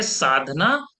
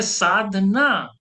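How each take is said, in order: First: Sadhana said as one unbroken word; joined as one word. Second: Sadhana drawn out as साध-ना, stress on ना; split before ना. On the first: Guru showing students the first meaning, Sadhana joined up. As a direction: run Sadhana together without a gap. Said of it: "तो इसके दो अर्थ निकलेंगे". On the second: Guru showing students the second meaning, Sadhana split before ना. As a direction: break Sadhana into two, leaning on ना. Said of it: "कुछ ना hold करना". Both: Shown as a demonstration.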